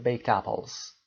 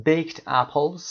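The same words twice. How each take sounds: First: Baked apples run together, slow; baked apples as one word; linked native way. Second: Baked apples, each word apart; baked apples, no linking; words separate. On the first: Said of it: "با یه ذره سرعت و نیتیو". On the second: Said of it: "جدا از هم". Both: Shown as a demonstration.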